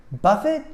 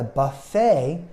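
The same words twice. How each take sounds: First: BUFFET as BUFF-it, first syllable stressed; hard final T. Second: BUFFET as buh-FAY, second syllable stressed; silent T. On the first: Teacher showing the word for hitting, BUFFET as BUFF-it. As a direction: say BUFF-it with a sounded T. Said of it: "to hit something very hard". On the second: Teacher naming the restaurant kind, BUFFET as buh-FAY. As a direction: say buh-FAY, ending on an open ay. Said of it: "a buffet is a restaurant". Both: Shown as a demonstration.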